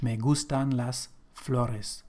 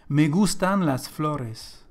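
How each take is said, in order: First: "Me gustan las flores" repeated slowly and quieter, each word clear; slow, softer repeat. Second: Slow model sentence. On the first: Teacher repeats the example slowly and softly after explaining. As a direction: say it again slowly and softer, to settle it. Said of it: "so generally speaking again". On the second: Spanish teacher models the sentence slowly for learners. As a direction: read it out slowly so students can copy. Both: Shown as a demonstration.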